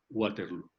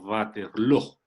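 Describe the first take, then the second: First: It is said with an English-like pronunciation. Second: It is said with a Dutch-like pronunciation. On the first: "siempre la hemos pronunciado a la inglesa" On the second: "la pronunciación correcta debe ser algo así como Waterloo"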